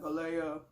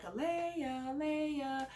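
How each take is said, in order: First: Lower, deeper call of the name; mock deep-voiced name call. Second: High sing-song call of the name; higher call of the child's name. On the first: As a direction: drop into a deep voice to call her. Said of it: "I'll get, like, in a deep voice". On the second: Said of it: "So I would be like". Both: Shown as a demonstration.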